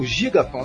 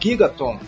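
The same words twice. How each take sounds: First: The name is pronounced with Portuguese sounds. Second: The name is pronounced with English sounds.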